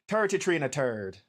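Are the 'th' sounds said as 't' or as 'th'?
t. The th sounds are said as t. "it always sounded like"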